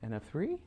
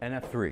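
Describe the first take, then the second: First: The voice rises at the end. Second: The voice falls at the end.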